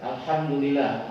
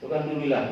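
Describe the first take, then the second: First: Every syllable of the phrase is said clearly. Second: The phrase is rushed and its syllables are swallowed. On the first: The praise is really said and counts. The speaker calls it right. "Itu namanya mengucapkan tahmid" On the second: The praise is not really said. The speaker calls it wrong. "Apa itu dubillah?"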